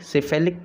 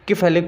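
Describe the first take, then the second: First: The word begins with an S sound. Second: The word begins with a K sound.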